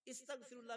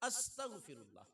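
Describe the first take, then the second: First: The word begins with an 'i' vowel. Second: The word begins with an 'a' vowel. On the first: The speaker calls it wrong. "इस्तगफिरुल्लाह भी गलत हो जाएगा" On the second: The speaker calls it right. "ये लफ्ज सही है"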